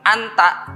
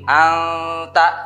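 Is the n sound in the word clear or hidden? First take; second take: clear; hidden. First: The n sound is pronounced clearly. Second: The n sound is hidden and nasalized. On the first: The speaker calls it wrong. "Jangan anta" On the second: The speaker calls it right. "tapi anta ya, ikhfa akrob. Jadi nun sukunnya harus samar"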